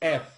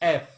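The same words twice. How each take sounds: The two takes are said the same way.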